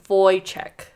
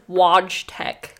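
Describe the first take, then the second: First: The name is said with its native pronunciation. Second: The name is read as English spelling suggests. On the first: The speaker calls it right. "but it's Wojtek" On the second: The speaker calls it wrong. "spelled like Wojtek"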